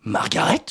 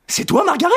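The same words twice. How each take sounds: First: Said in the usual way. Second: Much higher, louder astonished cry; melodramatic surprise. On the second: Acted. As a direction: gasp out her name as lost lovers meet. Melodramatic reunion.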